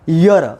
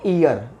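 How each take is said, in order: First: The word begins with a Y consonant sound. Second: The word begins with a plain vowel sound. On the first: The speaker calls it right. "इसको आप पढ़ेंगे यर" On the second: The speaker calls it wrong. "इसको पढ़ना पढ़ते हैं लोग ईयर ... ये गलत है"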